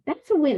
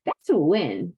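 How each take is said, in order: First: "That's a win" lifted higher, stress on win; emphatic restatement. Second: Said in the usual way. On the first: Real, not acted. Telling viewers their apology counts, emphatic. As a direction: repeat it higher to drive it home. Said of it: "repeated for emphasis". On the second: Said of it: "That's a win repeated".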